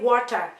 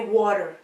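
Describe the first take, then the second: First: It is said with a Cameroonian accent. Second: It is said with an American accent. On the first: "as a Cameroonian, I would say water" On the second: "Americans will say water"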